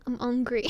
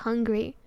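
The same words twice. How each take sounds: First: "hungry" as "ungry", the H left silent; dropped H. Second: Said in the usual way. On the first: Retold or imitated. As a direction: mimic a French speaker saying "hungry" without H. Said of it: "don't pronounce H at the start". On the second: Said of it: "it can mean just hungry".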